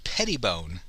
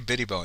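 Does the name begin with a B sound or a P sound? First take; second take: P sound; B sound. First: The name starts with a P sound. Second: The name starts with a B sound. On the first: The speaker calls it right. "It's Pettibone" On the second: The speaker calls it wrong. "I always say Bittybone"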